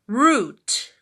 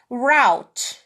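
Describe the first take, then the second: First: The vowel is an 'oo' sound. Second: The vowel is not an 'oo' sound.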